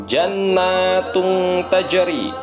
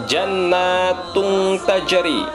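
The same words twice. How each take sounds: The two takes are said the same way.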